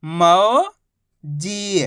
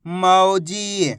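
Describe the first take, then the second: First: मौजी split into मौ, long pause, जी; syllable by syllable. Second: Mauji as one drawn-out word; syllables joined. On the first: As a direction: stretch मौ upward, pause, then a falling जी. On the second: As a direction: blend मौ and जी without a pause. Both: Shown as a demonstration. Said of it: "तो मिलके बन जाएगा".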